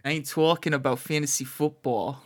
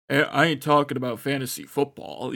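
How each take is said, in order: First: Broad New Jersey vowels on "talking"; Jersey accent. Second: Lightly voiced tough guy, a bit louder; firm, louder go at a deep-voiced ballplayer; attempted deep voice. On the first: Acted. Co-host voicing the ballplayer for the host, Jersey accent. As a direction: play a Jersey guy, accent on. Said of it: "Give him some Jersey". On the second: Co-host showing how he imagined the player, mock deep voice. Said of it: "it would just be a deep one".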